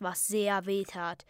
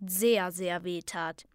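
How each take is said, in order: First: Said in the usual way. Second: Doubled "sehr, sehr", slow and drawn out; stress on sehr. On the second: A narrator's reading. Narrator correcting how much it hurt, "sehr, sehr" stretched. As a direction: lean slowly on each "sehr". Intensified correction of first wording.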